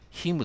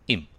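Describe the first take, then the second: First: The h sound is pronounced. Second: The h sound is dropped. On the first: The speaker calls it wrong. "him と言わないです。" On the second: The speaker calls it right. "どういうか、"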